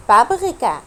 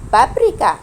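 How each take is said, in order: First: First "بابريكا" with r as gh, babgh-reeka style; throaty R. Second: "بابريكا" with a tongue-tip r; tapped R. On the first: Teacher offering the first of two R options, throaty R. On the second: Teacher offering the second of two R options, tapped R. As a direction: say "بابريكا" with the r as in Arabic ra. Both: Shown as a demonstration. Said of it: "أنا نطقته إر ولا نطقته إغ".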